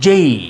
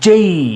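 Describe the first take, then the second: First: The vowel glides upward into an ee sound. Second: The same.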